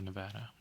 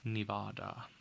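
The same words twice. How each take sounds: First: It is said the way Nevadans say it. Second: It is said the way non-locals say it.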